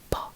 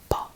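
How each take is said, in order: First: The vowel is short, flat and stops dry. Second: The same.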